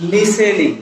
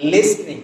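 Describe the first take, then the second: First: লিসেনিং as li-se-ning, no t; লিসেনিং with silent t and full middle vowel; incorrect variant. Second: লিসনিং as lis-ning, silent t; লিসনিং with s straight into n; correct pronunciation. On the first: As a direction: say লিসেনিং with three syllables, vowel after s. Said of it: "লিসেনিং শব্দটাও incorrect.". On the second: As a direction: say লিসনিং in two syllables. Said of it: "আসল pronunciation হচ্ছে কি?". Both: Shown as a demonstration.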